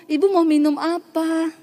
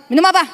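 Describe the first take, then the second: First: Higher, gently courteous imitation; polite offer. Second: Higher, abrupt question; mock brusque offer. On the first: Healed woman offers the counselor a drink, politely. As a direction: offer it sweetly, like a grateful host. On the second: Imagined bitter host offers a drink, mock brusque. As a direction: toss it out curtly.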